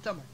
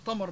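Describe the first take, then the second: First: Said in the usual way. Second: تمر with heavy backed t; emphatic t. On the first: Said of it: "بدل من تمر". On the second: Retold or imitated. Quoting a teasing eastern friend, تمر with emphatic t. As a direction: say تمر as tamar with ط. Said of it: "حول التاء إلى طاء".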